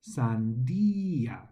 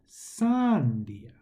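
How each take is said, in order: First: The stress is on the second syllable. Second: The stress is on the first syllable. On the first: The speaker calls it right. "check to see if they have an accent on the I" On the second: The speaker calls it wrong. "with the emphasis on the first word"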